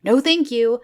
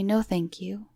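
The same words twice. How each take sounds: First: Firm refusal. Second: Soft, polite "No, thank you."; quietly, politely decline the offer; polite refusal. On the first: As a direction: cut him off firmly while walking away. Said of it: "I just go". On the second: Turning down the creepy photographer, soft and polite. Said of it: "I politely say". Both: Retold or imitated.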